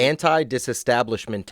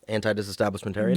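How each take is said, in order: First: The word is said slowly. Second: The word is said at normal speed.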